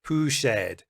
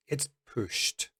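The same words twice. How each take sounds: First: Mock wrong poosh'd with an odd vowel; wrong pronunciation. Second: Pushed with a short clear t; the correct way, pushed; correct pronunciation. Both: Shown as a demonstration. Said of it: "So I don't want to hear".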